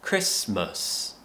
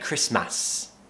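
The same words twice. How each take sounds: First: The last syllable has a reduced schwa vowel. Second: The last syllable has a full, clear vowel. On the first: The speaker calls it right. "Remember there's a schwa sound at the end" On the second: The speaker calls it wrong. "I hear lots of my students say Christmas"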